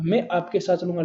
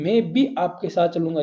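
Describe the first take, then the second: First: Said in the usual way. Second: भी leaned on as the key word; stress on भी. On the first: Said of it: "ये क्या देता है इसमें?". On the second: Shown as a demonstration. Teacher showing students how भी adds force. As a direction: give भी extra weight to show emphasis. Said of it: "बल दे देता है।".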